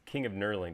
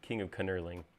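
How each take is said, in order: First: The K at the start of knurling is silent. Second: The K at the start of knurling is pronounced. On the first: The speaker calls it wrong. "doesn't sound good" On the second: The speaker calls it right. "you have to pronounce the K ... is alliteration"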